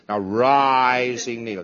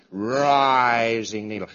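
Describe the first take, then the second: First: Slow, deliberate naming; slow demo. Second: Slow, deliberate naming; drawn out for a student; slow demo. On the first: Instructor repeating the drill, slow and deliberate. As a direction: spell it out slowly. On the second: Instructor drilling a student, slow and deliberate. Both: Shown as a demonstration.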